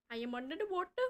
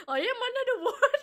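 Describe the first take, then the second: First: Said in the usual way. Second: Higher, louder and fast, breaking into laughter; giggling through the line as mock voice acting; laughing while voice acting. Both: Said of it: "Voice acting practice".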